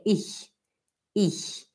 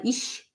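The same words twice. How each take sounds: First: Ich with a thin palatal hiss, not sh; soft German ch. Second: Ich mispronounced as "ish"; sh sound. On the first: Teacher correcting, ich with soft German ch. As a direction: lower "ich" ending in soft ch. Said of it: "é ich". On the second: Teacher warning of student's mistake, ich as "ish". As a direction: end "ich" on a full sh. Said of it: "não é ich". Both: Shown as a demonstration.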